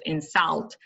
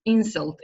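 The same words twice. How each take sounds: First: "insult" as the verb, in-SULT; last-syllable stress. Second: "Insult" as the noun, IN-sult; first-syllable stress. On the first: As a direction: lean on the end of "insult". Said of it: "The stress is on the last". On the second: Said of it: "on the first syllable". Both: Shown as a demonstration.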